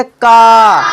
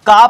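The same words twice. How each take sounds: First: का with a long, held "aa"; का, sustained as a teacher's model; drawn-out vowel. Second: Said in the usual way. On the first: Shown as a demonstration. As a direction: stretch the vowel of का. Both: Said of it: "थोड़ा खींच कर बोलेंगे".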